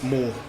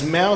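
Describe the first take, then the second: First: The name rhymes with 'door'. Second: The name rhymes with 'cow'. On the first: The speaker calls it right. "it is pronounced Moore" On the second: The speaker calls it wrong. "I was constantly pronouncing it as Mao"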